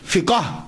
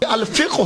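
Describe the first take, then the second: First: A vowel is inserted, splitting the word into two syllables. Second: The word ends in a clipped final consonant cluster. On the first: This is the everyday form used in society. "वैसे फिकाह, ... आम चलता है" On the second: This is the original dictionary pronunciation. "अल-फिक़्ह हो इसे बोलते हैं"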